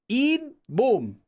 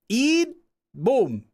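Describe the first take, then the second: Both takes have the same delivery.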